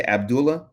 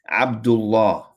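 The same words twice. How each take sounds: First: The usual mispronunciation of "Abdullah", light l; common wrong pronunciation. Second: "Abdullah" slower, with a doubled l held, falling at the end; correct Arabic pronunciation. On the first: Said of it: "Well, it's not pronounced correctly". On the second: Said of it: "It's Abdullah". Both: Shown as a demonstration.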